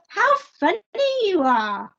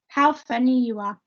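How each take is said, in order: First: It is said strongly with extra emphasis. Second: It is said calmly with little emphasis. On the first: "I'm putting more emphasis on my sentence when I've got an exclamation mark" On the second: "first one"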